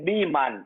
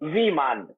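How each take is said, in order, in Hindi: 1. यह शब्द b ध्वनि से शुरू होता है। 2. यह शब्द v ध्वनि से शुरू होता है। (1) "बंगला जबान में जहाज को बोलते हैं बीमान" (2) "वाव से विमान"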